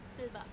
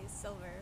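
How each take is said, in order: First: The name is said with a German pronunciation. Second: The name is said with an English pronunciation. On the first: "What did you call her in German?" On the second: "they say Silver. Because that's her name in English"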